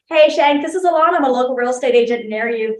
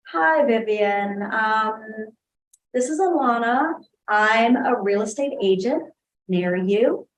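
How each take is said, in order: First: It sounds confident and smooth. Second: It sounds hesitant, with filler sounds.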